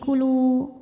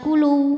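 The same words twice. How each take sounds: First: The final vowel is held long, not merged. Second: The w sound is merged into the next word. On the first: The speaker calls it right. "tapi kulu ... tidak dimasukkan ke waw berikutnya" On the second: The speaker calls it wrong. "bacanya bukan kulu"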